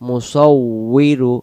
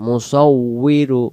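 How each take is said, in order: No difference in how they are said.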